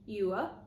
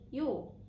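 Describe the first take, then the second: First: Two syllables with a short, quick oo vowel. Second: One syllable with the vowels merged into or. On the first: "the oo in you is often shortened" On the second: "they often change into or"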